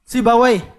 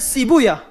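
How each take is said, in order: First: The name ends with a 'wai' sound. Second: The name ends with a 'yah' sound. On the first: The reading used outside the hadith scholars. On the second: The reading used by the hadith scholars.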